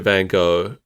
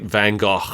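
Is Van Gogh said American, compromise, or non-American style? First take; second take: American; compromise. First: It is said with an American pronunciation. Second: It is said as an in-between compromise pronunciation. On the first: "Americans always pronounce it" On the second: "the truth is somewhere in between those"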